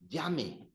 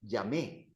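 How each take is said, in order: First: The stress is on the first syllable. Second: The stress is on the last syllable. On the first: It is the subjunctive form. The speaker calls it right. "The emphasis is on the second last syllable" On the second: It means I called, in the past. The speaker calls it wrong. "you're turning that into preterite because you're putting an accent"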